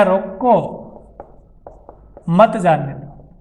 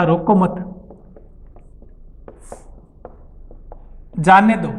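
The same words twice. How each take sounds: First: रोको alone, long pause, then slow मत जाने दो; pause after रोको. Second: रोको मत run together, long pause, then जाने दो; group मत with रोको, break before जाने दो; pause after मत. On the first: Teacher reading the same sentence to class, pause after रोको. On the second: Teacher reading the written sentence to class, pause after मत. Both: Shown as a demonstration. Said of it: "बोलकर इसका दो अर्थ प्रकट कर सकता हूँ".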